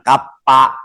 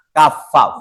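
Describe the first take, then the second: First: The middle consonant is a p sound. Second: The middle consonant is an f sound. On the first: The speaker calls it wrong. "Bukan kapa" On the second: The speaker calls it right. "fa, fa"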